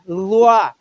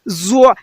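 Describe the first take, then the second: First: The first consonant is heavy, with no hiss. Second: The first consonant has a whistling hiss. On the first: The speaker calls it right. "Boldness also in this zwa" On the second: The speaker calls it wrong. "What is the whistle? Z, z, zwa. Wrong"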